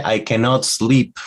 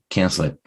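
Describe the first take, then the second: First: "cannot sleep" with both words of "cannot" pronounced; careful, higher-pitched "cannot sleep"; full form. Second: "Can't sleep" blended like "kensle"; short, reduced "Can't sleep"; contracted, run together. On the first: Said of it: "when you say". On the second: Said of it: "a lot of people say". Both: Shown as a demonstration.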